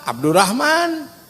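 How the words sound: The name is said the Sundanese way, Abdurrahman.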